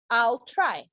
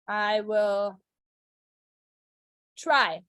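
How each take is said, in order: First: I and will merge into one syllable. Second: The words I and will are said separately. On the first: "Or you can say I'll try" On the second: "I can say I will be. I will"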